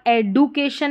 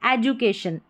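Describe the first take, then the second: First: एडुकेशन with a hard "du" in place of "ju"; wrong pronunciation. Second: एजुकेशन with "ju" for the written "du"; correct pronunciation. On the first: Teacher showing learners how not to read it, mispronounced एडुकेशन with "du". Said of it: "नहीं पढ़ रहे हैं". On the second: Teacher modelling the right reading, एजुकेशन with a clear "ju". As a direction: say एजुकेशन with D sounded as j. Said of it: "इसको ज पढ़ेंगे तब". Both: Shown as a demonstration.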